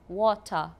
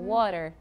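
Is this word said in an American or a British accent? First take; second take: British; American. First: It is said in a British accent. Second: It is said in an American accent.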